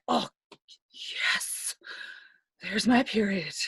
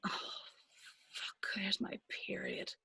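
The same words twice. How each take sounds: First: Hushed, relieved sigh on "Oh, yes", then settling into voice. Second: Barely audible, whispered dread; dismayed whisper. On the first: Telling friends it's sometimes a relief, whispered relieved yes. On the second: Telling friends of the worst feeling, whispered dismay. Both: Acted. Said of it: "The best and worst feeling".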